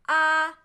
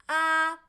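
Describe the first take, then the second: The two takes are said the same way.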